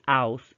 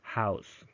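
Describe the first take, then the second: First: The word is said without the h sound. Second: The word is said with the h sound. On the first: The speaker calls it wrong. "you don't say house" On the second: The speaker calls it right. "instead you say house"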